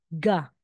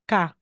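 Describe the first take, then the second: First: The consonant sounds clearly like g. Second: The consonant sounds clearly like k. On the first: The letter is in the middle of a word. "ga talaga po yan" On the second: The letter is at the end of a word. "ka po yung bigkas niya"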